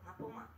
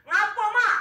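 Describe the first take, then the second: First: The voice is quiet and gentle. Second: The voice is loud and harsh. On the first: The child answers respectfully. The speaker calls it right. "suara kita harus lebih lembut dari orang tua kita" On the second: The child is annoyed at being called. The speaker calls it wrong. "suara melebihi suara tinggi dari suara orang tua kita"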